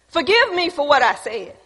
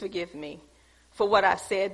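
First: The apology sounds blunt and casual. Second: The apology sounds soft and gentle. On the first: The listener is fine with a rough, direct approach. "he can accept that tone because that's where he is" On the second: The listener needs careful, respectful handling. "and my tone is different"

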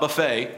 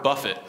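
First: The word ends in a long 'fay' sound. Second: The word ends in a short 'fit' sound. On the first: A self-service meal. "not buffet, which is a good thing" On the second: To strike or beat repeatedly. "You look at that word buffet"

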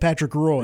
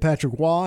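First: Roy is said like the English word 'roy'. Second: Roy is said with a French Canadian sound. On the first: The speaker calls it wrong. "still almost just said Patrick Roy" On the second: The speaker calls it right. "That French Canadian pronunciation"

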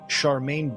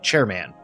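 First: The name is said as 'Charmaine'. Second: The name is said as 'chairman'. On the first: The speaker calls it right. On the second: The speaker calls it wrong.

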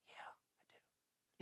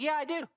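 First: It is whispered quietly. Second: It is said aloud openly.

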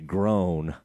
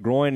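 First: The vowel sounds like 'oh'. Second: The vowel sounds like 'oy'. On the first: "Galloway used to say groan" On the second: "I think groin's the right way"

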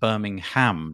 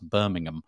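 First: The name is said in the American way. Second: The name is said in the British way. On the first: It names the city in the United States. "I think you could pronounce it Birmingham, don't you, in the United States?" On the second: It names the city in Britain. "Our equivalent, which is spelled the same, is pronounced Birmingham"

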